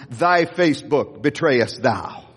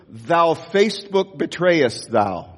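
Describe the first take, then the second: First: Slow, solemn King James line, a bit lower; corrected King James. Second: Slow, solemn King James-style line; mock King James. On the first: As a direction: intone the corrected old scripture slowly. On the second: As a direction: intone it like old scripture, slowly. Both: Shown as a demonstration. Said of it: "did I get the King James wrong?".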